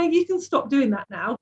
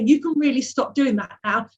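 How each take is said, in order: First: It sounds mildly annoyed. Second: It sounds clearly more angry.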